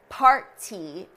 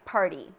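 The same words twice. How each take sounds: First: The middle consonant is a clearly released T. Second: The middle consonant is a quick, light flap. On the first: "pronouncing the T, which we don't do in American English" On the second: "that's the way we pronounce it in American English"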